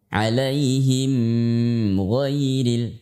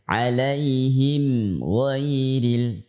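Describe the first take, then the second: First: The m sound is kept short. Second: The m sound is drawn out long. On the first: The speaker calls it right. "cukup seperti itu" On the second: The speaker calls it wrong. "tidak boleh"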